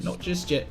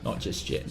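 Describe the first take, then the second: First: Said in the usual way. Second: Whispered, half to himself. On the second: Real, not acted. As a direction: whisper it as a teasing aside. Playful whispered aside to chat.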